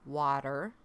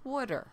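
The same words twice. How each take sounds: First: It is said with a general accent. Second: It is said with a New Jersey accent. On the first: "not water" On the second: "I am from New Jersey. It's water"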